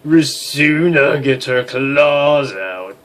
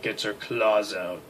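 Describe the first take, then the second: First: Slow dramatic. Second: Said in the usual way. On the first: Acted.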